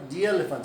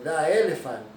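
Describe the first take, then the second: First: The word the sounds like thee. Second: The word the sounds like thuh. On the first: The speaker calls it right. "seria de" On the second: The speaker calls it wrong. "não se diz da"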